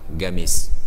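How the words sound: The word begins with a hard g sound.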